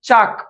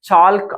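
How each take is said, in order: First: The word is said without an L sound. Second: The word is said with an L sound. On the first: The speaker calls it right. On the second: The speaker calls it wrong. "ಚಾಲ್ಕ್ ಅಲ್ಲ"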